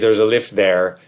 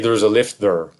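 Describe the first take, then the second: First: The final 'there' is full and unreduced. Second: The final 'there' is weak and reduced. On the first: The speaker calls it right. "it sounds natural" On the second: The speaker calls it wrong. "It sounds very awkward to say"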